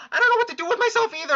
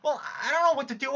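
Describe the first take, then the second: First: High, fast, louder tearful rush; crying, rushed. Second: Tearful. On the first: Jade spills her despair, high and rushed through tears. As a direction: blurt it out as the sob rises. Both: Acted. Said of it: "this fucking crying's making me lightheaded".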